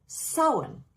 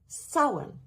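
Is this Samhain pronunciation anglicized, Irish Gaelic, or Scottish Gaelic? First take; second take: Irish Gaelic; Irish Gaelic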